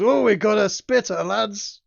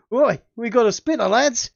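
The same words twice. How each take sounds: First: Higher and loud, a jeering call to the lads; mock the spitting spider gleefully; rowdy demon crowing. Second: Louder, higher booming Aussie-ish jeer; more booming voice. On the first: First take of the GM's demon taunting the spider, plain crowing. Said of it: "It roars with laughter and goes". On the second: Acted. GM redoing the demon taunt, more booming. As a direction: boom it out to the whole gang. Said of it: "in a slightly more booming voice".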